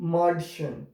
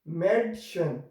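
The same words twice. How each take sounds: First: The first vowel is an open 'ah' sound. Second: The first vowel is a fronted 'eh' sound. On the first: The speaker calls it wrong. "if we remove this umlaut, then we will pronounce it Madchen. That is wrong actually" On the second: The speaker calls it right. "If we have these dots, two dots on it, then we'll, we will pronounce it"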